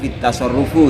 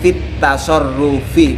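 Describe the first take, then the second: First: The final word ends with a 'u' vowel. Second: The final word ends with an 'i' vowel. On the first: The speaker calls it wrong. "bukan fit tasarrufu" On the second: The speaker calls it right. "yang betul adalah fit tasarrufi"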